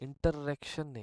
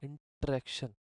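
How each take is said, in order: The two takes are said the same way.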